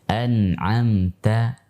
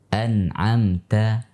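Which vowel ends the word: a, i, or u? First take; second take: a; a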